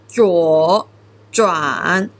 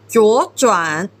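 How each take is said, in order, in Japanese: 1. 両方の音節とも、低く下がる第三声です。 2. 最初の音節は上がり、二番目の音節は低く下がります。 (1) "成長は本当は33 なんです。" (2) "実際に発音するときは23 の"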